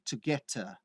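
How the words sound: Spoken in a British accent with a clear T. "o sotaque britânico seria to get a"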